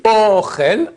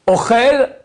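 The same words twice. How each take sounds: First: "Ochel" with a long, accented O; stress at the start. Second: "Ochel" with short O, chel accented and higher; stress at the end. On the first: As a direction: draw out the first syllable of "Ochel". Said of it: "j'ai mis une fois l'accent au début". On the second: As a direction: punch the second syllable of "Ochel". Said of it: "Uniquement l'accent où tu mets". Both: Shown as a demonstration.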